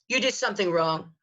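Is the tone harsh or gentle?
harsh. It is said in a harsh, crushing tone.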